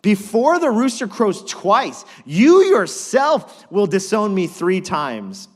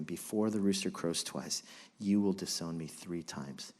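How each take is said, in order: First: Loud, slow, high prophecy; Jesus warning Peter, loud and slow; solemn warning. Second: Softer, lower haunted echo; quiet remembering. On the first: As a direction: hammer each word of the warning. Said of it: "Truly I tell you Jesus answered". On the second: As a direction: recall the words to yourself. Peter remembering the words quietly. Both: Acted.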